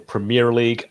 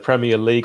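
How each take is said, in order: First: It is said with an American pronunciation. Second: It is said with a British pronunciation.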